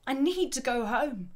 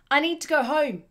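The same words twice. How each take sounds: First: Milder repeat of a desperate plea; emphatic, emotional. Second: Loud, raised demanding shout. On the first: Teacher re-reading a shouted plea, emphatic and emotional. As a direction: stress the need, emotional but short of shouting. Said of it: "Sounds quite emphatic, quite emotional". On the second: Man telling them he must leave, desperate shout. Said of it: "he shouted to them". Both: Acted.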